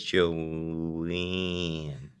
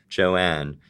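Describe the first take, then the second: First: The vowel is tight, nasal and close to eh. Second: The vowel is open, with the jaw dropped. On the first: "she's not opening her mouth at all to make that vowel" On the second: "doing my non-regional, like, nearly broadcast speech"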